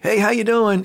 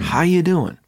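First: It sounds like a quick, casual hallway greeting. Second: It sounds like a sincere, personal question.

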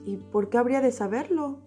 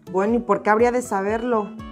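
First: It is said in a calm, neutral tone. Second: It is said in a defensive, annoyed tone.

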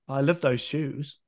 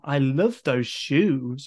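First: It is said flat and dry. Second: It is said with lively, playful inflection.

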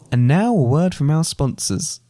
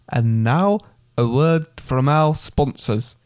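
First: It is said in the speaker's usual accent. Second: It is said in an attempted Scottish accent. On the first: "I thought you were going to do that in a Scottish accent" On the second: "Shall I give it another go?"

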